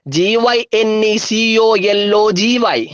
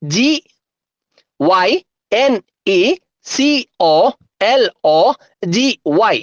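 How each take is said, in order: First: Letters run together without gaps; quicker, joined-up spelling chant; speedy spelling. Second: Letter by letter with long pauses; slow, separated dictation of letters; slow spelling. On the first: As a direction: rattle off the spelling in one go. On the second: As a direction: spell it out slowly, each letter standing alone. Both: Shown as a demonstration. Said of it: "ഒന്നുകൂടെ സ്പീഡില്".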